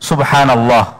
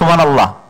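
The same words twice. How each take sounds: First: It is said slowly with every sound clear. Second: It is said fast with the h sound dropped. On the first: The speaker calls it right. "সুন্দরভাবে উচ্চারণ করা, তাড়াহুড়া না করা" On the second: The speaker calls it wrong. "আমরা যখন তাড়াহুড়া করি উচ্চারণটাও কিন্তু ঠিক হয় না"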